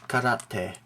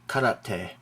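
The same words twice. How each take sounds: Both takes have the same delivery.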